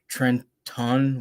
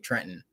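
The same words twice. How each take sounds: First: It is said with a standard pronunciation. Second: It is said with a New Jersey pronunciation. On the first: "which is the actual word" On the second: "we say Trenton"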